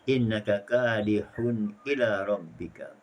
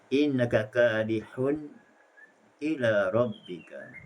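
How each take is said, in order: First: The words run on without a stop before ila. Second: There is a brief stop before ila. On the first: "secara tahqiq seperti bacaan Hafs al-Asim" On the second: "Boleh dibaca dengan juga dengan saktah"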